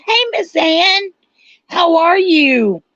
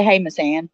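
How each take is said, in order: First: High, drawn-out greeting with a voice crack. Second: Said in the usual way. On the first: Real, not acted. Streamer greeting Miss Ann in chat, voice cracking high. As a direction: let the voice break upward on a slow hello. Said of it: "my voice cracked when I went to say". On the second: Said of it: "when I went to say".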